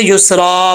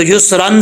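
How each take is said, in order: First: युसरा ending in long aa, no n; pausal alif. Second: युसरन closed with a short "an"; tanween ending. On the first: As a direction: open and stretch the end of युसरा. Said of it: "अलिफ जो है वो पढ़ा जाएगा वक्फ में". (युसरा के आख़िर में लंबा अलिफ) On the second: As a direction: sound the final n of युसरन. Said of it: "युसरन से युसरा". (युसरन में तनवीन की न आवाज़) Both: Shown as a demonstration.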